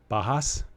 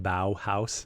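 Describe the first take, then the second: First: Bajas said as "BAH-hahs", questioning rise; mispronounced Bajas. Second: Bauhaus said slowly as "BOW-house"; corrected pronunciation. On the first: Real, not acted. Unsure host guessing the brewery's name, mispronounced Bajas as "BAH-hahs". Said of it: "thank you for the correction". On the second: Shown as a demonstration. Host passing on a correction, Bauhaus pronounced slowly as "BOW-house". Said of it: "it's pronounced Bauhaus".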